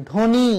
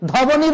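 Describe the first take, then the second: First: ধ্বনি with a silent ব, said as dhoni; correct pronunciation. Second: ধবনি with the ব sounded, higher and louder; wrong pronunciation. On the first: Teacher gives students the right ধ্বনি. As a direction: drop the ব in ধ্বনি. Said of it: "ধয় বয় দন্ত নয়সী". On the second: Teacher warns students against ধবনি. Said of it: "ধবনি বলা যাবে না". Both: Shown as a demonstration.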